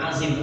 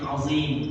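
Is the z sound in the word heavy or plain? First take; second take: plain; heavy. First: The z sound is plain and light. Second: The z sound is heavy and emphatic. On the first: The speaker calls it wrong. "bukan azim" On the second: The speaker calls it right. "azim za dia"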